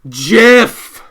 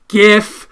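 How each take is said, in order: First: It begins with a soft J sound. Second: It begins with a hard G sound. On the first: The speaker calls it wrong. "not GIF" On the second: The speaker calls it right. "the correct and only correct pronunciation"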